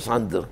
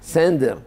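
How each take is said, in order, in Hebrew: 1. התנועה הראשונה נשמעת כמו 'a'. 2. התנועה הראשונה נשמעת כמו 'e'. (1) "לא סנדר" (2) "העין אצל האשכנזים זה סיגון"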